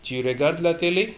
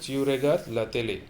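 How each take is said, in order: First: "Tu regardes la télé" climbing to a raised "télé"; rising interrogative tune on "la télé"; statement as question. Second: Said in the usual way. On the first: Shown as a demonstration. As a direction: ask it by pushing "télé" up. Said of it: "make the same statement as interrogation". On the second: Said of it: "That is the statement".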